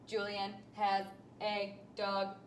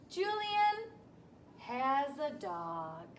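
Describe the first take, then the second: First: Each word is said flatly and separately, robot-like. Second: The words flow smoothly like natural speech. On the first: The speaker calls it wrong. "we don't talk like robots or read like robots" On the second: The speaker calls it right. "with lots of flow and fluency"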